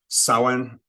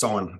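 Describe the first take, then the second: First: The O vowel is held long. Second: The O vowel is kept short. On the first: "with a long O" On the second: "with a shorter O"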